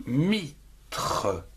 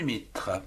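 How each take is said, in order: First: MITRE split into mi and tre; syllable by syllable. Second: Said in the usual way. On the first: Shown as a demonstration.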